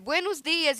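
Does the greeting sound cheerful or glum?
cheerful. It is said warmly, with a smiling voice. The greeting is friendly and polite. The speaker calls it right. "a pessoa chega para você"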